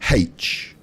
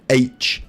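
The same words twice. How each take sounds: First: The letter name begins with an h sound. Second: The letter name begins with a vowel sound. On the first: The speaker calls it wrong. "H is wrong" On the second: The speaker calls it right. "H is correct"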